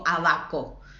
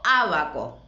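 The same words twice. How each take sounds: First: The stress is on the last syllable. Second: The stress is on the first syllable. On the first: The speaker calls it wrong. "No digo abaco" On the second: The speaker calls it right. "digo abaco"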